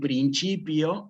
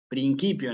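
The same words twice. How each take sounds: First: It is said with ecclesiastical Latin pronunciation. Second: It is said with classical Latin pronunciation. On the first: "en latín eclesiástico" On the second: "en latín clásico"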